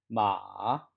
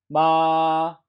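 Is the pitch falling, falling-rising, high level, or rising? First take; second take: falling-rising; high level. First: The pitch dips low and then rises. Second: The pitch stays high and level throughout. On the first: "삼성" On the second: "1성"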